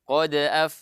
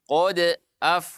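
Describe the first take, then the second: First: The words flow together without a break. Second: The words are split by a stop after qad. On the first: The speaker calls it right. "dibaca dengan eh, mengalir saja" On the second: The speaker calls it wrong. "tidak dibaca qad af"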